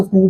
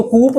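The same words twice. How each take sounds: First: कू said as "koo" with a silent p; just "koo", no p at the end; correct pronunciation. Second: कूप said as "koop" with the final p sounded; the mistaken "koop", p pronounced at the end; wrong pronunciation. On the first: Teacher giving students the right way, "koo". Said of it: "इसको कू बोलते हैं". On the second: Teacher showing students the wrong way, "koop". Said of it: "इसको कूप मत बोलना". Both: Shown as a demonstration.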